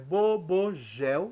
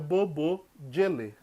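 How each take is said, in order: First: The name ends in a consonant sound. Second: The name ends in an added vowel sound. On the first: "se você for ler como está escrito" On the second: "Se você for ler em enoquiano"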